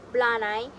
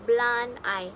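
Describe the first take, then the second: First: "blunt I" with the D joined straight onto the vowel; linked D. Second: Said in the usual way. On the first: Shown as a demonstration. Teacher showing linking, "blunt I" said as one joined word. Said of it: "The D links directly into the vowel". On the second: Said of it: "which is become blunt I".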